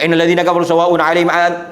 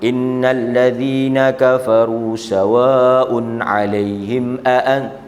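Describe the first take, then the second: First: It is recited fast and hurriedly. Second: It is recited slowly and carefully.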